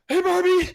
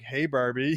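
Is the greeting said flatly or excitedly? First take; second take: excitedly; flatly. First: The greeting is said with loud excitement. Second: The greeting is said flatly, without excitement.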